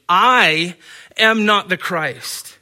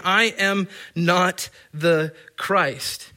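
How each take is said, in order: First: "I" punched loud, then "am not the Christ" slow; stress on I. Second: I am not the Christ drawn out slowly, each word weighted; slow emphatic quote. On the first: Preacher showing Greek stress, punching "I" loudly. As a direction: hit "I" hard and slow the rest. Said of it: "the word "I" is stressed by its position". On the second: Preacher quoting John, slow and emphatic. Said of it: "to show how emphatic John the Baptist". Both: Shown as a demonstration.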